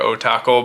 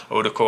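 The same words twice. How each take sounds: First: O-Tackle with "tack" in the middle; alternative pronunciation. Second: O-Tickle with a short, light middle syllable; alternative pronunciation. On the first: Reviewer unsure of the knife's name, offering the O-Tackle pronunciation. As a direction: say O-Tackle as the other possible reading. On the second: Reviewer unsure of the knife's name, offering the O-Tickle pronunciation. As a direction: say O-Tickle as one possible reading of the name. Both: Shown as a demonstration. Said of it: "how they wanna pronounce that".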